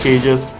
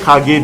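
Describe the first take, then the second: First: It sounds like the English word cages. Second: It is said like the Japanese word kage. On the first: This is how the official source says it. "they pronounce it as cages" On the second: This is how the local community says it. "we call it Kage because of the Japanese influence"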